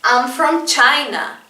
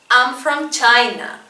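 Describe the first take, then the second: No difference in how they are said.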